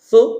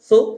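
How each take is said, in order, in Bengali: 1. 's' উচ্চারণ হয় জিভ দাঁতের মাঝে রেখে, এটি লিস্প। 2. 's' উচ্চারণ হয় জিভ দাঁতের মাঝে রেখে, এটি লিস্প।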